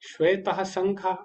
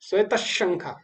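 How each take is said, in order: First: The first word ends with an audible visarga. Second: The first word ends with no audible visarga. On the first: The speaker calls it wrong. "ऐसे नहीं पढ़ेंगे इसमें" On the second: The speaker calls it right. "तो इस प्रकार से इसका उच्चारण होगा"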